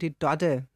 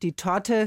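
First: The word has softened D sounds. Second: The word has hard T sounds.

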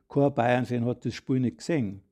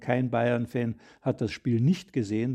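First: The stress is on "gesehen". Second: The stress is on "nicht".

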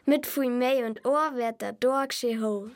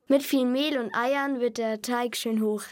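First: It is said in Bavarian dialect. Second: It is said in standard German.

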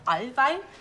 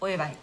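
First: The vowel is a drawn-out long O. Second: The vowel is a quick short Oi. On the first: The speaker calls it wrong. "anstatt Allwein" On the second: The speaker calls it right. "Das ist kein langgezogenes O, sondern das ist so ein kurzes Oi"

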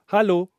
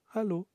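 First: It is said at normal loudness. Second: It is said quietly, like an echo.

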